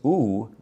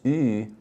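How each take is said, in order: First: The vowel is a plain back u sound. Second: The vowel is a rounded front ü sound. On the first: "then there's no umlaut" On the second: "then you have umlaut on top"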